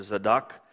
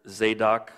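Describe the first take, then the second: First: Zadok as "zuh-DOK"; short first vowel in Zadok, weight on DOK; short vowel variant. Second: Zadok with a long A, "ZAY-dok"; long A variant. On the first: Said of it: "or Zadok". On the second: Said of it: "Zadok or Zadok". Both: Shown as a demonstration.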